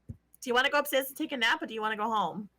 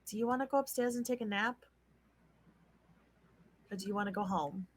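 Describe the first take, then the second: First: It is said in a put-on character voice. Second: It is said in the speaker's natural voice.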